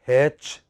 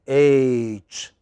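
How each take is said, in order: First: The letter is said with a local Indian pronunciation. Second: The letter is said with the standard pronunciation. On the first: The speaker calls it wrong. "A lot of people pronounce it here as H" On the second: The speaker calls it right. "it is H"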